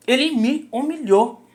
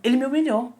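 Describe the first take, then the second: First: "Ele me humilhou" drawn out slowly, high, every word weighted; slow emphatic repeat. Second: Said in the usual way. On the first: Real, not acted. ("Ele me humilhou" dito devagar, com ênfase em cada palavra)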